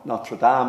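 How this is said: It is said with a French pronunciation. "or whatever French pronunciation you want to put on it"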